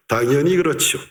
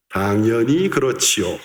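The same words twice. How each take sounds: First: Said in the usual way. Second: 당연히 그렇지요 run together very fast; fast, slurred 당연히 그렇지요; rushed Korean phrase. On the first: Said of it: "Es un poco largo". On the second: Shown as a demonstration. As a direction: rattle off 당연히 그렇지요 in one quick breath. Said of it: "¿cómo se pronuncia?".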